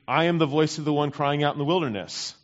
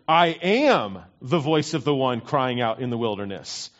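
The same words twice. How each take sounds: First: The opening word I is not emphasized. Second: The opening word I is strongly emphasized. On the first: He is only a voice preparing the way. "I always used to read" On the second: He himself is the one the prophet spoke of. "I read it a little differently this week"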